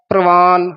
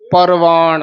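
First: The r is joined directly to the p. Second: The r is a full syllable after pa. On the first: The speaker calls it wrong. "ਚਰਨਾ ਚਰਾਰਾ ਲਾ ਦਿੰਦੇ ਹਾਂ" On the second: The speaker calls it right. "ਪੂਰਾ ਰਾਰਾ ਬੋਲਣਾ ਹੈ"

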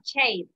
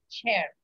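First: The vowel does not sound like E. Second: The vowel sounds like a plain E. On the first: The speaker calls it wrong. "no chair" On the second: The speaker calls it right. "con una E"

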